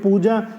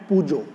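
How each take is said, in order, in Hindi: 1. शब्द 'a' स्वर से खत्म होता है। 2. शब्द 'o' स्वर से खत्म होता है। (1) "पूजा हिंदी का वर्ड" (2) "उसके पीछे ओ लगा के उसको बोलते हैं"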